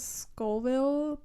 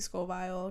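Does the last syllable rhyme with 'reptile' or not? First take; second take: not rhyming; rhyming. First: The last syllable does not rhyme with reptile. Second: The last syllable rhymes with reptile. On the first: "I think it's Scoville" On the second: "it could be Scoville because there's an E at the end"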